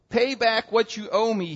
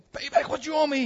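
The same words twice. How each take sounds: First: Said in the usual way. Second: High-pitched, acted angry demand. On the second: Servant choking his debtor, high acted demand. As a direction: demand it in a sharply raised pitch. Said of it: "he demanded".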